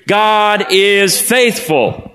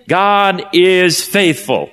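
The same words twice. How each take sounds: First: God is faithful, sung out higher and very slowly; chanted, call it out together with the crowd; higher unison chant. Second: God is faithful, each word drawn out slowly; slow emphatic declaration. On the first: Congregation saying it with the pastor, a slow higher chant. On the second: Pastor modelling the phrase for the congregation, slow and weighty. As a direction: lay the words down slowly, with weight. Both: Shown as a demonstration. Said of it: "Say it with me on the count of three".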